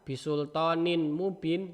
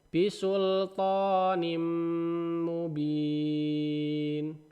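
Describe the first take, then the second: First: The n is pronounced clearly before the m. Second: The n merges into the following m. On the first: The speaker calls it wrong. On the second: The speaker calls it right. "dihilangkan satu kemudian dimasukkan ke memnya"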